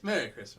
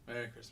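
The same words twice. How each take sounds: First: It is said with more enthusiasm. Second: It is said flatly, without enthusiasm.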